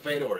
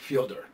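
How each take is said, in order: First: The first syllable sounds like 'feh'. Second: The first syllable sounds like 'fyo'. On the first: This is how most people say the name. The speaker calls it wrong. "I'm going to stick with Fedor" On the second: This is how the man says his own name. The speaker calls it right. "it's like Fyodor"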